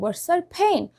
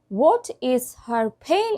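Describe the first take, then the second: First: The first words blend into a short reduced form. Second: Each word is said fully and separately.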